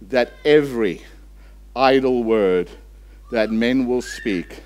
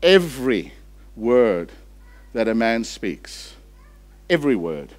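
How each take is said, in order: First: Said in the usual way. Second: Slow, word by word with pauses; slow reading. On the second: Shown as a demonstration. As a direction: let each word land slowly. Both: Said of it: "You want to read that slowly?".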